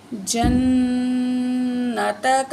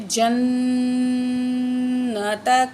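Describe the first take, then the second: First: جنتک said slowly, noon held with a nasal hum; slow nasal recitation; nasalized noon. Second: جنتک stretched very slowly, noon nasalized; teacher repeats with ghunna. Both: Shown as a demonstration. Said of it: "نون میں غنہ کر کے پڑھیں گے".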